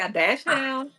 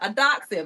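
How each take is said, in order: First: The word ends with a 'hound' sound. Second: The word ends with a 'hund' sound. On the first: The speaker calls it wrong. "I said when I say a dash hound" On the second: The speaker calls it right. "That's how you say it"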